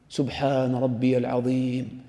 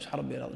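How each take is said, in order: First: The phrase is said slowly and deliberately. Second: The phrase is rattled off very quickly. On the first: The worshipper reflects on the meaning while saying it. The speaker calls it right. "هكذا تقولها في ركوعك مثلا، تتفكر في عظمة الله" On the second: The worshipper does not reflect on what is said. The speaker calls it wrong. "هكذا بهذه السرعة"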